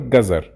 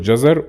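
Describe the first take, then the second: First: The word begins with a hard G sound. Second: The word begins with a soft J sound. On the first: This is the everyday spoken form. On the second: This is the formal standard form.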